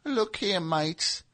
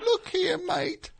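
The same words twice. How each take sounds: First: Soft, raised little English voice; a small English manager, hushed; Peter Grant impression. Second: Tiny, very high English voice; Peter Grant impression. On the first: Band manager addressing his mates, soft miniature English voice. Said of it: "mini Peter Grant". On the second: Mini band manager addressing a mate, squeaky-high and soft. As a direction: pitch it way up, small and soft. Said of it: "his voice was way higher because he was so small".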